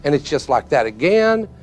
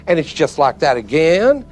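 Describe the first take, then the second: No difference in how they are said.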